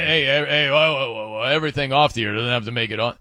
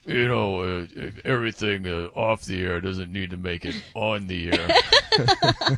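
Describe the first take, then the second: First: Quick, lightly voiced Coop cutting the story off; a hint of Coop waving it away fast; Coop impression. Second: Lower, slow, put-on Coop voice; Coop impression. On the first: Host mimics co-host Coop, hushing the off-air story, quick and light. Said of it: "Coop is like". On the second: Host does his Coop impression for Lorena, low and slow. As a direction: lay on Coop's voice low and drawn out. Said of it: "let me do my Coop impression".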